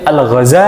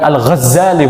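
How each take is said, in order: First: The z sound is short, single. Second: The z sound is held long, doubled. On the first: The speaker calls it right. "huruf za-nya itu itu tidak pakai tasydid" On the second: The speaker calls it wrong. "Bukan Al-Ghazali, bukan"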